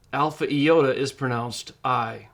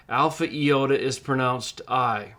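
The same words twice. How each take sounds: The two takes are said the same way.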